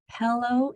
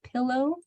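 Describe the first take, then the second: First: The first vowel sounds like a short 'eh'. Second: The first vowel sounds like a short 'ih'.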